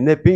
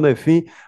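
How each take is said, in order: First: The middle consonant is a p sound. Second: The middle consonant is an f sound. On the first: "eu falo NEPIN" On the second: "o meu professor ali disse que é NEFIM"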